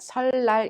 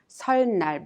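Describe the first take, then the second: First: The second syllable starts with an l sound. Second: The second syllable starts with an n sound. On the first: The speaker calls it right. "but 설날 instead" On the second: The speaker calls it wrong. "We do not pronounce 설날"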